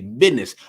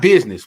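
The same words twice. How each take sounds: First: The middle consonant is a d sound. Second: The middle consonant is a z sound. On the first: The speaker calls it right. "We're going to say business. B I D N E Z Z" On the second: The speaker calls it wrong. "not business"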